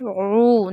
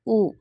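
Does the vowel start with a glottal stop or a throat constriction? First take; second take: throat constriction; glottal stop. First: It starts with a squeeze in the mid-throat. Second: It starts with a catch deep in the throat. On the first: The speaker calls it right. "read ain from the middle of the throat" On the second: The speaker calls it wrong.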